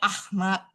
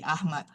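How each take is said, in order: First: The h is a rough throat sound. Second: The h is a soft breathy sound.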